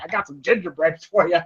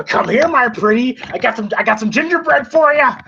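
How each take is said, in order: First: Said in the usual way. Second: Creepy witch taunt. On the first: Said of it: "I laughed at that". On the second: Retold or imitated. Freddy luring Dylan, retold.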